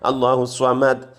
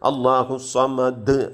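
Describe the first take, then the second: First: The final consonant is cut short without echo. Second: The final consonant is released strongly with an echo. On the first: The speaker calls it wrong. "അങ്ങനെ ഓതാൻ പാടില്ല" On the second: The speaker calls it right. "ഇത്തിരി സ്ട്രോങ് ആയിട്ട് ഉച്ചരിക്കണം"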